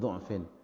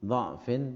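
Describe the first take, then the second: First: The first syllable has the vowel u. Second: The first syllable has the vowel a. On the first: "dibaca dhammah" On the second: "dibaca fathah"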